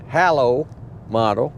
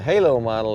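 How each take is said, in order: First: The first word sounds like 'hello'. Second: The first word does not sound like 'hello'. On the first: The speaker calls it right. "it's actually halo model, like hello there" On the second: The speaker calls it wrong. "everyone that calls it a halo model is mispronouncing it"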